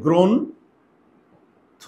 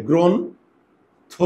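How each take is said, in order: First: গ্রন্থ drawn out very slowly, rising at the end; teacher stretching গ্রন্থ to show two o sounds; slow spelled-out word. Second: Drawn-out গ্রন্থ, very slow with a rise; teacher drawing out গ্রন্থ for the class; slow spelled-out word. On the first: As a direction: drag out গ্রন্থ so each o is heard. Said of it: "তাহলে দেখো কি হবে". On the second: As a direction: stretch গ্রন্থ out slowly as grohontho. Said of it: "ইংরেজিতে translate করি". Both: Shown as a demonstration.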